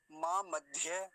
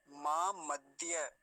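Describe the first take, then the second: First: मां मध्य with a breathy aspirated dh; wrong dhya. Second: मां मध्य slow, unaspirated d into ya; correct dya. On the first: Teacher showing the wrong way, aspirated dhya. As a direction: puff air into the d of मध्य. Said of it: "ये गलत है". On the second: Teacher showing the right way, slow clean dya. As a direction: keep the d of मध्य free of breath. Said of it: "ये ठीक है". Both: Shown as a demonstration.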